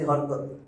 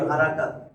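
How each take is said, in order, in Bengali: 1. শব্দটি সংক্ষিপ্ত বাংলা স্বরধ্বনি দিয়ে বলা হচ্ছে। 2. শব্দটি পূর্ণ আরবি স্বরধ্বনি দিয়ে বলা হচ্ছে। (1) "কিন্তু আমরা বলতেছি হরকত" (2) "আসলে উচ্চারণ হারাকাত"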